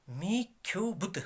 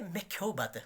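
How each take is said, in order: First: मी क्यों बुत with मी and बुत, the mispronounced way; wrong pronunciation. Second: मैं क्यों बत with मैं and a short a in बत; right pronunciation. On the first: Teacher shows students the wrong Kashmiri, wrong pronunciation. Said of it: "pronunciation इसकी गलत है". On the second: Teacher shows students the correct Kashmiri, right pronunciation. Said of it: "ये है". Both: Shown as a demonstration.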